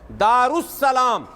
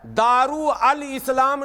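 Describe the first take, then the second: First: The parts merge into one word 'darussalam'. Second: 'Al' is said separately before 'islam'. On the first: The speaker calls it right. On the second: The speaker calls it wrong. "नहीं है"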